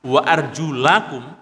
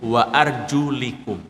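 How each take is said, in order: First: The vowel after 'arjul' is an 'a' sound. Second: The vowel after 'arjul' is an 'i' sound. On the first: The feet are to be washed. "membacanya dengan fathah" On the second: The feet are to be wiped. "kalau dibaca kasrah"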